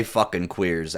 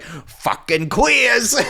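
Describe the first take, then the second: First: Said in the usual way. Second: Much higher, louder, slow quote broken by laughter; laughing so hard the quote comes out high. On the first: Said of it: "why would he say". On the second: Retold or imitated. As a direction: squeal it out while cracking up. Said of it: "He's like".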